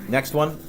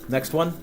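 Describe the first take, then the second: Both takes have the same delivery.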